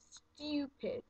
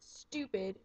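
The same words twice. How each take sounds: First: The U is said as yoo. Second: The U is said as a plain oo. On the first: "pronounce your U's like Y O U" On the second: "you normally say the U like an oo"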